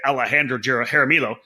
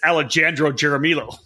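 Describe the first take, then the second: First: The name is said smoothly in its natural pronunciation. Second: The name is said carefully, sounding out its spelling. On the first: "like I announce it" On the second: "when you're trying to spell it correctly"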